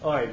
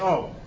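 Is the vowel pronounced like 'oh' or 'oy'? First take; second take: oy; oh. First: The vowel glides into an 'ee' sound. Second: The vowel is a plain 'oh' sound. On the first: The speaker wants to sound yeshivish. "all the people that want to be yeshivish say" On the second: The speaker does not need to sound yeshivish. "the people don't necessarily need to be yeshivish, say"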